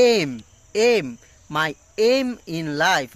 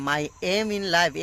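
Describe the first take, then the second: First: "aim" with a clear gliding vowel, said slowly; dictionary "aim". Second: "my aim in life" slowly, with the usual "aim". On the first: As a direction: draw out "aim" slowly and carefully. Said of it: "এখানে বলছে". (ধীরে, স্পষ্ট দ্বিস্বরে "aim") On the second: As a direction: say "aim" the familiar way. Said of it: "এটা এম না বলে এখানে বলছে". (প্রচলিত উচ্চারণে "aim") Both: Shown as a demonstration.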